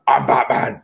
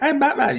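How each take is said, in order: First: It is said in a dark, somber tone. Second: It is said in a light, campy tone.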